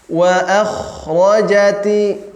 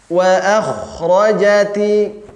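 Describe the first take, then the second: The two takes are said the same way.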